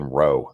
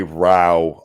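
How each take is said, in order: First: "row" rhyming with go; "row" as in rowing a boat; insisted pronunciation. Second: "row" rhyming with cow; "row" as in a noisy quarrel; alternate pronunciation. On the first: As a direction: say "row" with a long O. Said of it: "that word is quite clearly fucking row". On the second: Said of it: "I will never say row on purpose". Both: Shown as a demonstration.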